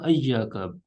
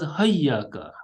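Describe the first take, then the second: First: The word begins with an a vowel. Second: The word begins with an h sound. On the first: "ayyaka bifathil hamza, yani with the fath" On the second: "also as hayyaka with ha"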